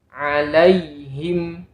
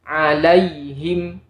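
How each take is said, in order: Both takes have the same delivery.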